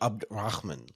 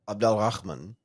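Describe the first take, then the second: First: The middle del syllable is swallowed and shortened. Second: The middle del syllable is fully pronounced. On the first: "the Egyptian way, which is shortened... you swallow a little bit of the del" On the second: "the second way is the Arabic way"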